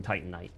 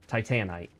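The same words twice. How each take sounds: First: TITANITE said TIGHT-un-ite; everyone's pronunciation. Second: TITANITE said tie-TAN-ite; own pronunciation. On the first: Retold or imitated. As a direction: stress the first syllable of Titanite. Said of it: "Everyone kept saying". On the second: Shown as a demonstration. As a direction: stress the middle syllable of Titanite. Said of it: "nobody ever caught on to my".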